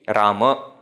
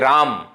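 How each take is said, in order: First: The name ends with a final a vowel. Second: The name ends on the m consonant. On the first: This is the proper Sanskrit form. "we have to pronounce a in the end" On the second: This is the everyday form used in Hindi and similar languages. "In our colloquial languages, when we are using, we say Ram"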